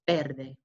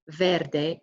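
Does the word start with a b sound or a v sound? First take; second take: b sound; v sound. First: The word starts with a b sound. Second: The word starts with a v sound. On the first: The speaker calls it right. "Our V's are pronounced as B's" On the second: The speaker calls it wrong. "So it's not verde"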